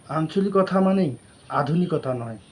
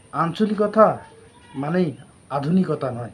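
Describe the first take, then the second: First: Said in the usual way. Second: জোর দিয়ে আঞ্চলিকতা, তারপর দৃঢ়ভাবে মানেই আধুনিকতা নয়; emphatic repeat. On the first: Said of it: "first statement of the slogan". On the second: Shown as a demonstration. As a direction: hammer the opening word আঞ্চলিকতা. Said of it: "slogan repeated as a closing punch".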